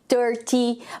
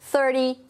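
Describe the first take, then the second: First: The word is pronounced in a careful, formal way. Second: The word is pronounced in a relaxed, informal way. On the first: "um jeito mais formal" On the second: "um jeito mais informal de falar"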